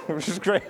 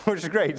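First: Chuckling through the words; laughing. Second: Said in the usual way. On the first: Real, not acted. Pastor amused by the woman's quick yes, laughing. Laughing after her reply.

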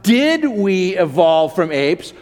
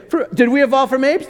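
First: "did we evolve from apes?" drawn out slowly with weight on did; slow stressed question. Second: "did we evolve from apes?" pitched higher and rising to apes; rising incredulous question. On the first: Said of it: "the question is not". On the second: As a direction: toss it up high as a question nobody asks. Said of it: "They're not asking that question". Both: Shown as a demonstration.

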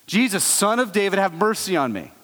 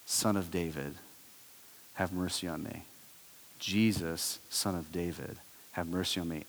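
First: Lightly raised beggar's call; mild mock yell. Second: A blind beggar pleading from the roadside, hushed cry; hushed desperate plea. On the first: Beggar ignores the crowd and calls again, mild raised yell. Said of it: "he just yells out again". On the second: Acted. Beggar calls to Jesus from the roadside, soft desperate plea. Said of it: "he yells out something".

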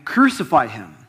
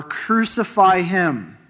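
First: A firm, raised call of the crowd; a moderate crowd cry; crowd's cry. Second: Higher and slow, drawn out insistent shout; the crowd's stronger, slower demand; crowd shouting more. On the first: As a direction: voice the crowd crying out, not full force. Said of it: "they cried out again". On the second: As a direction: stretch "Crucify him" as the crowd presses harder. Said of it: "they shouted all the more". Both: A narrator's reading.

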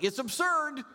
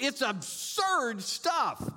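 First: ABSURD flung out high and scornful; scoffing stress. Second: Slow scornful drawl. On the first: Preacher scoffing at leaders' promises, ABSURD thrown high. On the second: Preacher repeating his verdict on politicians, slow and disdainful. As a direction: draw out "absurd" slowly with disdain. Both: Real, not acted.

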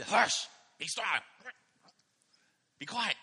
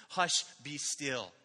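First: Put-on louder, sharp irritated snapping at the kids; a fed-up parent barking hush; frustrated parent. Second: Put-on gentle hush to a child. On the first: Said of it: "I'm often frustrated". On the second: Shown as a demonstration. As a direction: hush them tenderly, slowly. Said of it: "like we do with our children".

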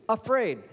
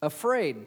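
First: "Afraid" thrown out high and loud; stressed afraid. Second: Said in the usual way. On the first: Shown as a demonstration. Preacher pressing the word on his congregation, loud and high. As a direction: land hard on "Afraid". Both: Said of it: "Why is he afraid of this one?".

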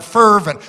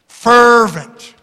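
First: Said in the usual way. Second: "Fervent" louder with a falling tune; preacher drives home "Fervent" to the congregation; stressed fervent. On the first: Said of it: "Circle that word". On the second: Shown as a demonstration. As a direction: punch the word "Fervent". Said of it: "That word fervent".

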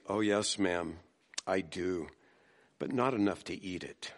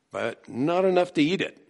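First: Put-on a polite child gently declining; sweetly. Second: "enough" leaned on, higher and firm, falling at the end; pointed punchline. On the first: A narrator's reading. Little girl sweetly refusing the hostess's broccoli, soft and polite. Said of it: "The girl replied sweetly". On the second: Shown as a demonstration. Preacher turning the girl's line on the congregation, pointed. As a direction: land "But not enough to eat it" as a pointed moral. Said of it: "You know, we love broccoli".

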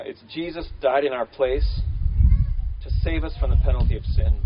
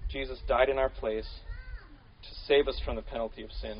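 First: DIED and SAVE hit hard and loud; emphatic statement. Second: Softer, measured, for note taking; calm dictation pace; slow dictation. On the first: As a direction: proclaim the big idea. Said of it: "a big idea, if you want to kind of put it down". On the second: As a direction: say it slowly so they can write it down. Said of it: "put it down in". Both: Shown as a demonstration.

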